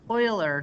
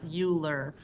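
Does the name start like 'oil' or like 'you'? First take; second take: oil; you. First: The name begins with an 'oy' sound. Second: The name begins with a 'you' sound. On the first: The speaker calls it right. "pronounced like the word Euler" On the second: The speaker calls it wrong. "not Euler"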